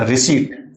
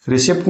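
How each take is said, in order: First: "रिसीट" with long ee, p left silent; correct pronunciation of receipt. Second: "रिसिप्ट" with short i and a p before t; wrong pronunciation of receipt. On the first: Teacher correcting the misreading for learners, correctly pronounced. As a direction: say "रिसीट" as the fix, ending "-seet". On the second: Teacher warning learners off this reading, mispronounced. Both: Shown as a demonstration. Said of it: "रिसिप्ट नहीं पढ़ना".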